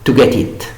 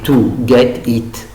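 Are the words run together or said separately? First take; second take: run together; separately. First: The words are run together in one piece. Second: The words are said separately, one by one. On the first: The speaker calls it right. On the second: The speaker calls it wrong. "on ne peut pas dire"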